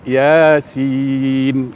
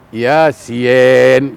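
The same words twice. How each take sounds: First: The second vowel sounds like i. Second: The second vowel sounds like e. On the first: The speaker calls it right. "Contohnya dalam Quran" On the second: The speaker calls it wrong. "Kalau Latin, ... kan ada huruf E di situ nanti"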